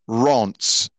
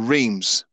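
First: The name is said with a French-style pronunciation. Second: The name is said with an English-style pronunciation. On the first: The speaker calls it right. "It's actually pronounced Rance" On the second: The speaker calls it wrong. "Many British people would call this team Reims or Reims"

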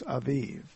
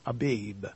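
First: The middle consonant sounds like a V. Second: The middle consonant sounds like a B. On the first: The speaker calls it right. "it almost sounds like a V, so it's Aviv" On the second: The speaker calls it wrong. "this is not really the accurate translation"

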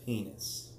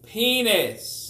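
First: It is said quietly. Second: It is said very loudly.

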